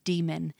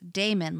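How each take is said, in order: First: The word sounds like the word demon. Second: The word sounds like the name Damon. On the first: This is how the audiobook and the fandom say the word. The speaker calls it right. "it is a conscious effort to say demon, which is how the pronunciation is in, you know, the audiobook and the fandom" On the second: This is how the speaker first read the word as a child. The speaker calls it wrong. "I read it as Damon, D-A-E-M-O-N, as Damon, like the A-E sound"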